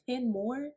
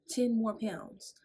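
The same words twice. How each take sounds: First: Shocked ten more, pitched up and louder; disbelief. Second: Slow, drawn-out stunned repeat; stunned disbelief. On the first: To the nurse, a pitched-up shocked disbelief. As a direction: she can't believe the number. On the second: To the nurse, slow stunned disbelief. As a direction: let it sink in, slowly. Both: Retold or imitated.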